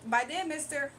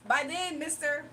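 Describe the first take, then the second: No difference in how they are said.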